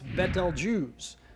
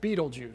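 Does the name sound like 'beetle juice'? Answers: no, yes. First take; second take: no; yes. First: It does not sound like 'beetle juice'. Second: It sounds like the words 'beetle juice'. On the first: "is correctly pronounced" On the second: "most people pronounce it"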